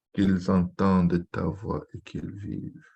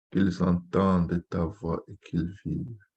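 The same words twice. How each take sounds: The two takes are said the same way.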